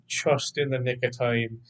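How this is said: It is said in a Scottish accent, like 'chust'. "with a Scottish accent, ... it's like C H U S T"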